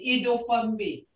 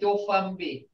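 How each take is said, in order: First: The word begins with an extra vowel syllable. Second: The word begins directly with the do syllable. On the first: "We should say idofunbi" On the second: "but we just say dofunbi"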